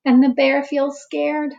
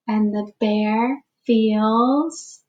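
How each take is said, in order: First: "scared" said fully, landing firmly; full refrain. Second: Slow, rising, hanging on "feels"; open-ended refrain. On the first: Teacher finishing the repeated refrain for the class. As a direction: complete the line with "scared". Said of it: "full refrain after open one". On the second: Teacher pausing so children fill in the refrain. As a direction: stretch out "feels" and let the class finish it. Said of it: "leaves refrain open for kids". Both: Shown as a demonstration.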